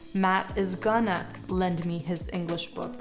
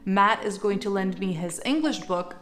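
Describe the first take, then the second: First: Going to is shortened to gonna. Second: Going to is said in full. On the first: "you could say" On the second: "instead of saying"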